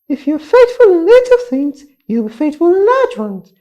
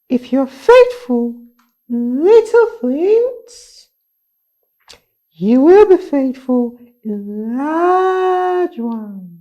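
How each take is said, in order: First: It is said at a very fast pace. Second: It is said at a normal pace.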